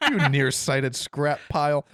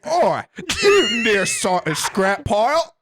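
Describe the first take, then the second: First: Slow, barely British American voice; hint of British accent. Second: Loud, high Yorkshire caricature; hammed-up Yorkshire accent. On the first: Shown as a demonstration. Host re-reading droid insult to co-hosts, slight British accent. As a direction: say it slowly, only drifting toward British. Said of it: "That's hard not to say in a British accent". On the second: Host showing co-hosts a British insult, broad Yorkshire accent. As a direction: belt it out in an over-the-top Yorkshire accent. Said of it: "And you're from Yorkshire".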